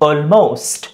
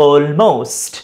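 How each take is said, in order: The two takes are said the same way.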